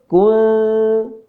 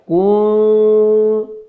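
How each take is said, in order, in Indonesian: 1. Vokalnya tetap pendek. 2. Vokalnya dipanjangkan. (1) "Yang betul kun" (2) "Yang salahnya bagaimana? Dibaca panjang"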